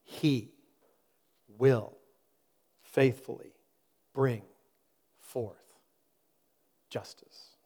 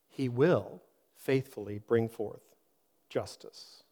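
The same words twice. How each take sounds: First: It is read slowly and deliberately. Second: It is read at a normal pace.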